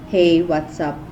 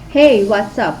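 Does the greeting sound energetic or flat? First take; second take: flat; energetic. First: The greeting is low and lacks energy. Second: The greeting is lively and full of energy. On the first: The speaker shows little connection to the friend. The speaker calls it wrong. "if my eyes are down" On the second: The speaker feels connected to the friend. The speaker calls it right. "my zest will show more connection"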